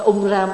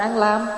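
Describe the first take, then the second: First: It is said as 'ung ram' with an R. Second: It is said as 'an lam' with an L. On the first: This is the original form of the mantra. "cái ông nguyên gốc nó đâu phải án lam. Nó ung ram" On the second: This is the form commonly chanted locally. "Mình tụng án lam"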